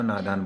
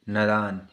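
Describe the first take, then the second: First: नादान with a long first vowel, naa-daan; correct pronunciation. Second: नादान with a short first vowel, nə-daan; wrong pronunciation. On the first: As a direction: say नादान properly with a long aa at the start. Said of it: "नादान सही है". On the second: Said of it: "ये गलत है". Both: Shown as a demonstration.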